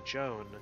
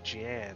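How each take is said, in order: First: The name is pronounced like 'Joan'. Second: The name is pronounced like 'Jan'. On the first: "I always want to say Joan" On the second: "But I always say Jan"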